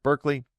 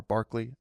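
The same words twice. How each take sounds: First: Said in the usual way. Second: Berkeley said as BARK-lee; alternative pronunciation. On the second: Shown as a demonstration. Correcting how the philosopher's name is said, Berkeley pronounced BARK-lee. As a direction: say Berkeley with an AR in the first syllable, like "bark". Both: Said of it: "how it's actually pronounced".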